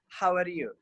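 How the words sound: It is said with the mouth nearly closed. The speaker calls it wrong. "Not how are you. See, our mouth is closed"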